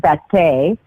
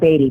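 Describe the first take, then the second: First: The name ends with an 'ay' sound. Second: The name ends with an 'ee' sound. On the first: The speaker calls it right. "the actual pronunciation is Batay" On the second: The speaker calls it wrong. "a lot of people call it Beatty"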